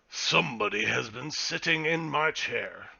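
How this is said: It is said in a deep, gruff bear voice.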